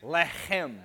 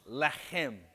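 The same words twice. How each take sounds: First: "Lechem" again with a throaty ch, leh-khem; "Lechem" with a scraped kh sound; Hebrew word said again. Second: "Lechem" with a throaty ch, leh-khem; "Lechem" said like Hebrew, guttural kh; Hebrew word said slowly. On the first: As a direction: give "Lechem" the guttural kh. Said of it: "here it comes". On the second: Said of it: "say it after me". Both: Shown as a demonstration.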